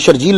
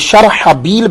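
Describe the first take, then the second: First: The name is said as Sharjeel. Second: The name is said as Shurahbeel. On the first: The speaker calls it wrong. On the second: The speaker calls it right.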